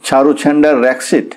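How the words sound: The name is said with English pronunciation. The speaker calls it right. "ইংরেজি উচ্চারণ সম্বন্ধে খাঁটি ইংরেজ ছিলেন... চটপট শুধরে দিতেন"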